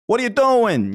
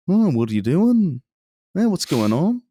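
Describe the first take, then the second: First: High-pitched mock New York-Boston accent. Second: Drawn-out Scouse lilt, higher pitch; Liverpool accent. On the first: Podcaster comparing two cities' tinge, mock New York-Boston accent. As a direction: exaggerate an East Coast city accent, pitched up. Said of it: "they do have the same kind of". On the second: Acted. Podcaster showing co-host how Liverpool sounds, mock Liverpool accent. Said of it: "Liverpool is very, like".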